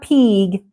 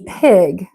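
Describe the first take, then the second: First: The vowel is a long 'ee' sound. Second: The vowel is a short 'i' sound. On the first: The speaker calls it wrong. "they try to make the I into an E sound. It's not pig" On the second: The speaker calls it right. "it's pig"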